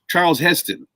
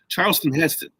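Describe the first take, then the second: First: The first name ends without a final ton. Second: The first name has an extra s sound. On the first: "they weren't saying the the the ton at the end of it" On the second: "I keep wanting to say Charleston, Charleston with an S"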